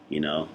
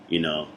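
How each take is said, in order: Both takes have the same delivery.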